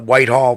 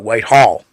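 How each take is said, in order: First: The stress is on the first syllable. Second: The stress is on the second syllable. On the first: Locals do not say it this way. "locals do not call it Whitehall" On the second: This is how locals say it.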